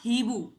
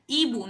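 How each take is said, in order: First: The word starts with an audible h sound. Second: The word starts with a vowel, no h sound. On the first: The speaker calls it wrong. "not Hibu" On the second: The speaker calls it right. "I have mentioned Ibu, not Hibu"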